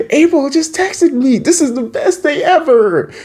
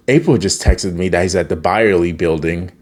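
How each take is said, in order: First: Very high, squealing delight; hammed-up overjoyed squeal; mock giddy excitement. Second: Said in the usual way. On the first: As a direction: gush like someone with a crush. Acting thrilled reaction to April's text.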